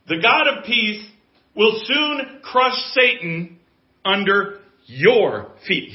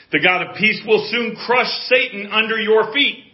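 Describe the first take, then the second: First: Slow, loud verse with "your" drawn out and punched; stress on your. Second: High, loud preaching of a verse; forceful pulpit declaration; preaching proclamation. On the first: Shown as a demonstration. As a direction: break up the phrase and land hard on "your". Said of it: "I want to emphasize the word "your". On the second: Real, not acted. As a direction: proclaim the promise with full voice.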